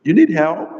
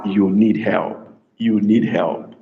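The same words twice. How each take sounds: First: "You need help" pitched high, asking; high questioning "You need help". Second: "You need help" lower and falling; low, settled "You need help", not asking; low statement. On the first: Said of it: "hi, a question". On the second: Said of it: "We're not asking you a question". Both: Shown as a demonstration.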